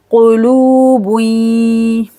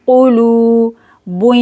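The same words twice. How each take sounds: First: Slow drawn-out kulubui, lu held long; Quranic recitation. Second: Kulubui with short ku and drawn lu, rising end; recited again. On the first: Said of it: "काफ को जल्दी पढ़ेंगे कु". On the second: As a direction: recite kulubui, ku quick, lu long. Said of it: "लाम को खींच के पढ़ेंगे लू". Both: Shown as a demonstration.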